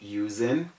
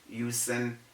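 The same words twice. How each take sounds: First: The s is sounded like z. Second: The s is sounded like s. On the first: The speaker calls it right. "The correct things to say are" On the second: The speaker calls it wrong. "using is wrong"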